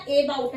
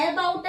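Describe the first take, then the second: First: ए बाउट starting with long 'ay'; wrong pronunciation. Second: ए बाउट starting with open 'ae'; wrong pronunciation. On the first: Teacher rules out another mistake, mispronounced ए बाउट. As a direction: say ay-bout, as in day, for ए बाउट. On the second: Teacher rules out a mistake, mispronounced ए बाउट. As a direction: say ae-bout, as in cat, for ए बाउट. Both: Shown as a demonstration. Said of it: "ना ए बाउट है".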